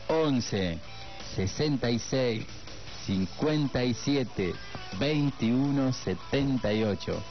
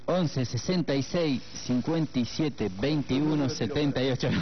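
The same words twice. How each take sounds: First: The number is read at a slower pace. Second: The number is read at a quick pace. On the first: The speaker calls it right. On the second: The speaker calls it wrong.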